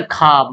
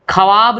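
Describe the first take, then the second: First: ख्वाब said "khaab", no "w"; as spoken. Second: ख्वाब with "w" sounded, "kha-waab"; as written. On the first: Teacher showing everyday speech, ख्वाब as "khaab". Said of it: "हम लोग बोलते". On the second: Teacher reading out the spelling, ख्वाब as "kha-waab". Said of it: "लिखा हुआ है". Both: Shown as a demonstration.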